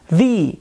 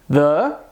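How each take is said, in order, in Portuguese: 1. A vogal soa como ee. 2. A vogal não soa como ee.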